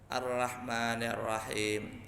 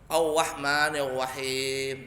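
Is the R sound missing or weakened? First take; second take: weakened; missing. First: The R sound is present but imperfectly formed. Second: The R sound is missing entirely. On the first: The reciter may still lead the prayer. "Nyebutnya ra-nya ada, cuman tidak sempurna" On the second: The reciter should not lead the prayer. "kalau parah, ... nggak bisa huruf R sama sekali"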